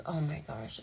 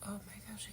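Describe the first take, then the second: First: Said in the usual way. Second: A moved, unvoiced gasp of words; real choked-up whisper; emotional whisper. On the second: Real, not acted. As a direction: whisper it, overcome. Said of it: "how emotional I'm being right now".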